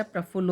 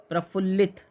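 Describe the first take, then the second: First: प्रफुल्ल stopping on l; correct word form. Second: प्रफुल्लित ending in "-lit"; wrong word form. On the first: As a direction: end प्रफुल्ल without "-it". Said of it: "होता है". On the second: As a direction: add it to प्रफुल्लित. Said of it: "नहीं होता है". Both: Shown as a demonstration.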